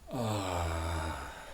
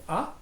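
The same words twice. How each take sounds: First: The vowel is long and drawn out. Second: The vowel is short and clipped. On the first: The speaker calls it right. "you can make it into a long ah" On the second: The speaker calls it wrong. "it's not quite it"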